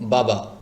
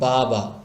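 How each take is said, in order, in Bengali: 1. স্বরধ্বনিগুলো ছোট এবং তাড়াতাড়ি বলা হয়। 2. স্বরধ্বনিগুলো লম্বা করে টেনে বলা হয়। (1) "টান দেওয়া যাবে না, এটা হবে এরকম" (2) "টান দিয়ে ফেলেন বা লম্বা করে ফেলেন"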